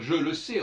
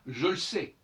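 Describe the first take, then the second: First: The vowel of 'le' is fully pronounced. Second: The vowel of 'le' is dropped. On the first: The speaker calls it wrong. "on ne doit pas dire" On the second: The speaker calls it right. "on doit dire"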